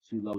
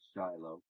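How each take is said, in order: First: The name is given its Hebrew pronunciation. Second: The name is given its English pronunciation. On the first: This is the local name. "Shiloh is what we call it in Hebrew" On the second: This is the name most Americans use. "Most Americans know it as Shiloh"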